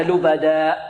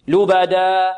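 First: "لبدا" cut off by a glottal stop; closed-throat hamza ending. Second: "لبدا" sustained on an open aa, no glottal stop; open-throat ending. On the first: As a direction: shut the throat at the end of "لبدا". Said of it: "نغلق الحلق؟". ("لبدا" بإغلاق الحلق على همزة) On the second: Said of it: "هكذا، ويبقى الحلق". ("لبدا" بألف مفتوحة دون همزة في آخرها) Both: Shown as a demonstration.

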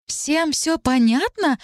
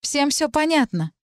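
First: Very slow, outraged echo with hard stress on всё; flaring up. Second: Said in the usual way. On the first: Acted. Talit flaring up at Dariana's words, outraged. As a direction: throw the words back, flaring. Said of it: "вспыхнула Талит". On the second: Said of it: "заговорила Дариана".

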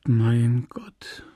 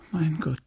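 First: Whispered moan. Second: Soft, understated groan of distress; moaning. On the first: Emma to the priest who fails to understand, whispered moan. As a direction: let it fade into a breathy, despairing whisper. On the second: Emma to the priest who fails to understand, soft moan. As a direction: moan it softly. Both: A narrator's reading. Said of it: "stöhnte sie".

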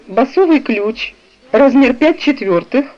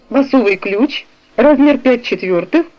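Both takes have the same delivery.

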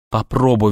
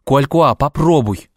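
First: Pleading. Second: Louder, higher pleading cry; desperate plea. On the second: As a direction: beg him, voice rising. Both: A narrator's reading. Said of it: "взмолился я".

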